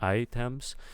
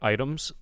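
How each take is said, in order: First: The t in the middle is a crisp t. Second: The t in the middle is a soft flap. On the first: The speaker calls it wrong. "I'm hearing items, items" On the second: The speaker calls it right. "instead of like items ... we don't want a t sound there"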